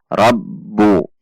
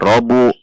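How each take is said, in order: First: The b is doubled and held with pressure. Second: The b is single and short, not held. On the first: The speaker calls it right. "ada tekanan" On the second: The speaker calls it wrong. "jika dibaca robu maka ba tasydidnya hilang"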